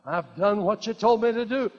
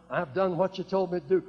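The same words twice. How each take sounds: First: Emphatic declaration. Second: Said in the usual way. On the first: Shown as a demonstration. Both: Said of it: "Can you say that?".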